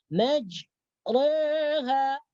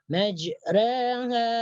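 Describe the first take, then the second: First: The r sound is heavy and thick. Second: The r sound is light and thin. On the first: The speaker calls it wrong. "Jangan sampai dibaca tebal" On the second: The speaker calls it right. "Jadi dibaca tipis"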